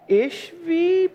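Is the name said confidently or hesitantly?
hesitantly. The name is said hesitantly and uncertainly. The reader is unsure of the pronunciation. The speaker calls it wrong. "people will go, "I don't really know how to pronounce that.""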